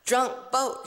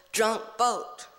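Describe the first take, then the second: First: Put-on "Drunk boat" with both words hit hard and apart; stress both syllables. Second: Put-on "drunk boat" repeated, both words weighted, falling; stress both syllables. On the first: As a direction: punch "Drunk" and "boat" evenly. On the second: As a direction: lean on "drunk" then "boat". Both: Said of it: "he emphasized the two stressed syllables".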